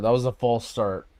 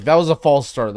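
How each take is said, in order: First: Said in the usual way. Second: Frustrated. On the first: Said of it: "Like, that was a false start". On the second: Real, not acted.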